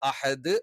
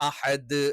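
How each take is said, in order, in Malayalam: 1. അവസാനത്തെ d സാവധാനത്തിലും വ്യക്തമായും റിലീസ് ചെയ്യുന്നു. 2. അവസാനത്തെ d സാവധാനത്തിലും വ്യക്തമായും റിലീസ് ചെയ്യുന്നു.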